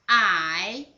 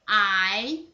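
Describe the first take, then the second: First: The pitch dips low then rises. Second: The pitch rises from mid to high.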